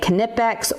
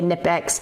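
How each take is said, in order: First: The K at the start is pronounced. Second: The K at the start is silent.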